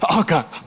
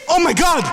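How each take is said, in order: First: It is said wearily, with low energy. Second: It is said excitedly, with high energy.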